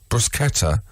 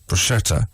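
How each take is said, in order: First: The middle consonant is a hard k sound. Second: The middle consonant is a soft sh sound. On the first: The speaker calls it right. "should be pronounced k sound" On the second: The speaker calls it wrong. "and not"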